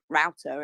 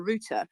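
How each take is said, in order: First: The word is said in an American accent. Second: The word is said in a British accent. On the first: "the American router" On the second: "in England, I call it a router"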